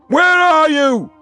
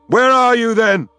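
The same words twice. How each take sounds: First: Higher, slower, drawn-out howl of where; last, longest cry of despair; desperate final cry. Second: Loud, high demand; raging call to the silent spirits; bellowing. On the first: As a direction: stretch it out until the voice breaks. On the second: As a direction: shout the question at the empty sky. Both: A narrator's reading.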